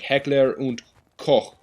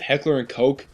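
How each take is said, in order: First: Koch ends in a throaty German ch sound. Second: Koch ends in a hard k, like coke. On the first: The speaker calls it right. "it should be pronounced Heckler und Koch" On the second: The speaker calls it wrong. "is mispronouncing it"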